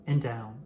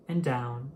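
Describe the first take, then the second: No difference in how they are said.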